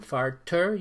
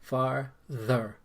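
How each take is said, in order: First: The middle consonant is a plain t sound. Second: The middle consonant is a th sound. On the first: The speaker calls it wrong. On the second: The speaker calls it right.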